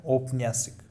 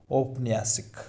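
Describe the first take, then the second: No difference in how they are said.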